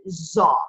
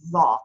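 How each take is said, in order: First: It is said the Egyptian dialect way. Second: It is said the standard Arabic way. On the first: The speaker calls it wrong. "this is the one that you always hear Egyptians say" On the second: The speaker calls it right. "In modern standard Arabic, it's pronounced"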